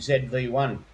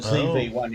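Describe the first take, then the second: First: The letter Z is said as zed. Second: The letter Z is said as zee. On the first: This is the non-American way of saying it. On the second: This is the American way of saying it.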